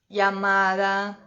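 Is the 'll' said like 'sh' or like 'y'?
y. The 'll' sounds like a 'y' sound. This is how it is said in Spain. "na Espanha o mais característico é o som do I"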